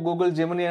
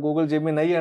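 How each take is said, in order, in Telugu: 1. చివరి అక్షరం 'ee' శబ్దంతో ముగుస్తుంది. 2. చివరి అక్షరం 'eye' శబ్దంతో ముగుస్తుంది. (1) "కొంతమంది ఏమో గూగుల్ జెమినీ అంటున్నారు" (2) "మరి కొంతమంది ఏమో గూగుల్ జెమినై అంటున్నారు"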